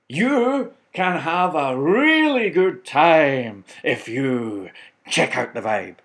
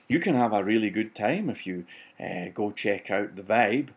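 First: It is said with varied pitch and pace. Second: It is said flatly, like plain conversation.

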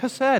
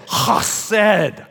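First: The first sound is a plain, soft h. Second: The first sound is a rasp from the throat. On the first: The speaker calls it wrong. "we were like" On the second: The speaker calls it right. "you say it like this"

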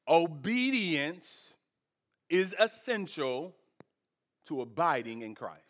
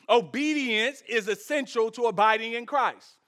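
First: It is said slowly. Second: It is said at a normal pace.

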